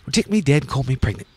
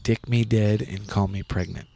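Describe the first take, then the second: First: It is said in a put-on British accent. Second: It is said in her usual American accent.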